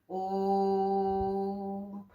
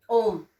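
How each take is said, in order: First: ओम stretched long at normal volume; ओम को लंबा खींचना; drawn-out Om. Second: ओम held very long and called out loud; ओम को लंबा खींचकर पुकारना; drawn-out pluta vowel. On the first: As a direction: hold the ओ of ओम long and even. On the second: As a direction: stretch ओम like calling someone from afar. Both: Shown as a demonstration. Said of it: "तो हम ओम को लंबा खींचते हैं".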